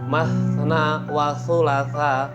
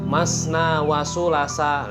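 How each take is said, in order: First: The last word starts with a 'th' sound. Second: The last word starts with an 's' sound. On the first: The speaker calls it right. "ketika bicara ta" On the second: The speaker calls it wrong. "kalau mungkin ada yang bilang masna wa sulasa, nah ini kan sebenarnya sudah beda arti"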